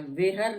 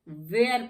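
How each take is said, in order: First: An h sound is heard in the word. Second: No h sound is heard in the word. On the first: The speaker calls it wrong. "वेहर नहीं पढ़ते हैं" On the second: The speaker calls it right. "वेयर पढ़ते हैं"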